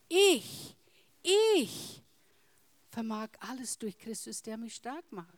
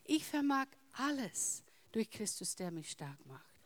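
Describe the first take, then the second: First: The stress is on the word ich. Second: The stress is on the word alles.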